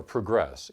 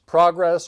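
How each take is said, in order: First: "progress" said pruh-GRESS, weak first syllable, stress on the second. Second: "Progress" said PRAH-gress, stress on the first syllable. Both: Shown as a demonstration. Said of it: "either way, right?".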